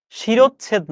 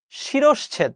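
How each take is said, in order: First: The rejected শিরোচ্ছেদ; wrong form. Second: শিরশ্ছেদ pitched up, clean falling tune; the right শিরশ্ছেদ, lifted and final; correct pronunciation. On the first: (ভুল উচ্চারণে শিরোচ্ছেদ) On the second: (শুদ্ধ উচ্চারণে শিরশ্ছেদ) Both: Shown as a demonstration. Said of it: "না".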